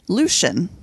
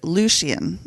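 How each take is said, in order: First: The name is said with fewer syllables. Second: The name is said with an extra syllable. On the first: The speaker calls it wrong. "I've actually been pronouncing it wrong" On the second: The speaker calls it right. "there's an extra syllable"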